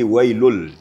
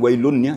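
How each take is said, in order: First: The n sound is merged into the l. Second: The n sound is clearly heard before l. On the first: The speaker calls it right. "tapi wailul" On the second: The speaker calls it wrong. "Bukan wailunnya"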